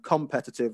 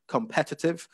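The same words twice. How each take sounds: First: The stress is not on the second syllable. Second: The stress is on the second syllable. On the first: The speaker calls it wrong. "you were saying competitive" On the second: The speaker calls it right. "you'd want to get the stress on the second syllable there"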